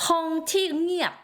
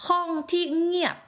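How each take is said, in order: No difference in how they are said.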